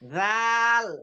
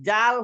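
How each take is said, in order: First: It begins with a soft th sound. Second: It begins with a j sound. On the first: The speaker calls it right. "জিব্বাটা বের করে" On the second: The speaker calls it wrong. "জাল হয়ে যাচ্ছে এটা"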